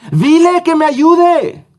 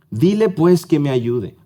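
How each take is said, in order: First: Much higher, louder, slow shouted order; exclamatory demand. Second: Said in the usual way. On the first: Acted. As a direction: cry it out like Marta demanding help with exclamation marks. (orden exclamada, mucho más aguda, fuerte y lenta) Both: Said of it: "Tiene signos de exclamación".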